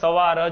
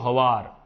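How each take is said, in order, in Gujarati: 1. શબ્દ s અવાજથી શરૂ થાય છે. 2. શબ્દ h અવાજથી શરૂ થાય છે. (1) "લખશો ત્યારે સવાર જ લખશો" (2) "આવું બોલીશું હવાર"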